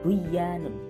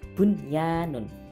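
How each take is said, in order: First: The first n sound is dropped before the y. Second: The first n sound is clearly heard before the y. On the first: The speaker calls it wrong. "bukan buyanun" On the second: The speaker calls it right. "tapi jelas bunyanun"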